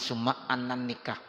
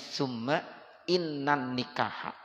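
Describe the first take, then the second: First: The word after summa starts with an 'a' vowel. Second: The word after summa starts with an 'i' vowel. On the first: The speaker calls it wrong. "jangan summa annan nikah" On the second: The speaker calls it right. "Bacanya summa innan nikah"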